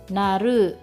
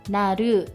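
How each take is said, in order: Both takes have the same delivery.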